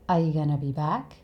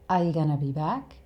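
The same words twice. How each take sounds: The two takes are said the same way.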